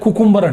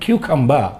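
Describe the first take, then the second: First: It starts with 'koo' and ends in 'ber'. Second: It starts with 'kyoo' and ends in 'ba'. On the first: The speaker calls it wrong. "కుకుంబర్ అంటారు చాలామంది, కానీ తప్పది" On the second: The speaker calls it right.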